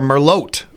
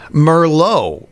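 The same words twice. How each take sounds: First: The final T is pronounced. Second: The final T is silent.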